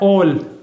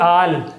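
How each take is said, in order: First: The vowel sounds like 'aw' in law. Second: The vowel sounds like 'a' in father. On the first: The speaker calls it right. "ये होता है ओल" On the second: The speaker calls it wrong. "ना कि आल"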